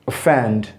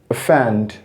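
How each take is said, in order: The two takes are said the same way.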